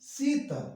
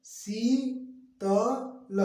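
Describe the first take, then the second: First: Sheetal as one quick word, high then falling; joined-up model reading; syllables joined. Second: High, very slow शी, त, ल; spelled-out slow reading; syllable by syllable. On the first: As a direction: blend Sheetal without gaps. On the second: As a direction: hold शी, then place त and ल apart. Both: Shown as a demonstration. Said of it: "मिला के".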